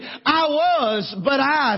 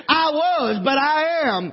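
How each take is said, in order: First: Said in the usual way. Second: "I was" then a firm landing on "am"; stress on am. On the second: Shown as a demonstration. Preacher reworking Paul's words for the congregation, stressing am. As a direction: set "but I am" against "I was", leaning on "am". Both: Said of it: "If I could say it like this".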